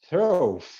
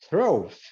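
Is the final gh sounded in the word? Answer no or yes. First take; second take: yes; yes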